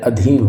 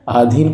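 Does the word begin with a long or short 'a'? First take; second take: short; long. First: The word begins with a short 'a' vowel. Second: The word begins with a long 'aa' vowel. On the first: The speaker calls it right. "अधीन होगा" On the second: The speaker calls it wrong. "आधीन कुछ नहीं होता, ये बिल्कुल गलत है"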